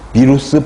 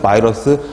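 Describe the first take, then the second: First: The word begins with the sound bi. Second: The word begins with the sound bai. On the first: "예전에 이것도 비루스라고 읽었죠" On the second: "아무 상관없습니다"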